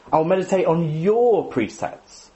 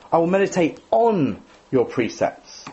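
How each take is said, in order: First: Slow, "your" pressed hard; slow, hitting "your"; stress on YOUR. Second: Slow, "on" lifted and stressed; slow, leaning on "on". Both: Shown as a demonstration. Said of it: "emphasize a different word".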